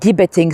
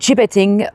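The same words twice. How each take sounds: First: The word starts with a hard G sound. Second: The word starts with a soft J sound. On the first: The speaker calls it wrong. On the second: The speaker calls it right.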